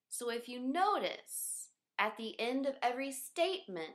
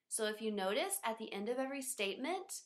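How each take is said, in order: First: The voice falls at the end. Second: The voice rises at the end. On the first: "we also have falling tone, which sounds like this" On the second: "we also have rising tones, which sound like this"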